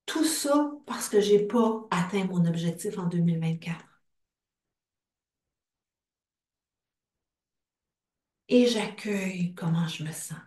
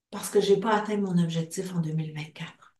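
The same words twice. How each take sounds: First: Hushed whisper. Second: Said in the usual way. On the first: Acted. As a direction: breathe the words without voice. Tapping script turns intimate.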